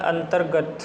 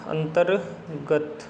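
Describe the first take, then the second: First: Said in the usual way. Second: अंतर्गत very slow, split as अंतर, गत; slow syllable breakdown. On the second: Shown as a demonstration. Teacher shows how it is written, very slowly in parts. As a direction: break अंतर्गत in two with a pause. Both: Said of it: "इस तरीके से लिखा जाएगा".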